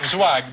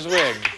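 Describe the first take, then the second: First: The name has the vowel of 'bag'. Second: The name has the vowel of 'big'. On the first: The speaker calls it right. "Pronounce it Zwag" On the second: The speaker calls it wrong. "pronounce it wrong"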